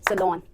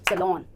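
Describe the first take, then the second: The two takes are said the same way.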